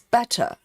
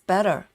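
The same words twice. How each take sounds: First: The middle T is clearly pronounced. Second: The middle T is soft, almost like a D. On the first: "in British is better" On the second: "American says better. So it's a very soft T"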